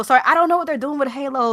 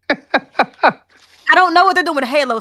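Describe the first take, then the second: First: Said in the usual way. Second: Laughing. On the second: Real, not acted.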